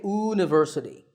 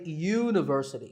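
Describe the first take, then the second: First: The word begins with a plain vowel sound. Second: The word begins with a y sound. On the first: The speaker calls it wrong. "We don't say university" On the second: The speaker calls it right. "that first sound is a y sound"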